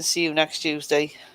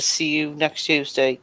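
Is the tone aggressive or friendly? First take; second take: friendly; aggressive. First: It is said in a warm, affectionate tone. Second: It is said in a hostile, threatening tone. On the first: The speaker is greeting a friend fondly. "hey boy, you alright? You fucking see you next Tuesday. That's alright" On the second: The speaker is insulting and threatening someone. "oi, you, you're to see you next Tuesday, and I'm gonna smash your face in"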